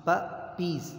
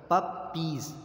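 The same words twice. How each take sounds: The two takes are said the same way.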